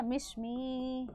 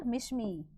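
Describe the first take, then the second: First: Mishmi long-drawn, softer, like an ad tagline; ad jingle imitation. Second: Said in the usual way. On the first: Teacher jokingly recalls an ad for students, long-drawn ad imitation. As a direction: imitate a TV ad, stretching Mishmi out very slowly. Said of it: "एक ऐड आती है ना".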